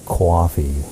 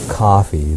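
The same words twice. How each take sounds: First: It is said in a New York accent. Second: It is said in a standard American accent. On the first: "they say coffee" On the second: "instead of saying uh, let's say coffee"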